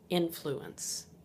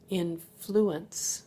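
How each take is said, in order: First: The stress is on the first syllable. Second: The stress is on the second syllable. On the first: It is used as a noun. "if it's used as a noun, the emphasis is on the first syllable" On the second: It is used as a verb. "That has emphasis on the second syllable"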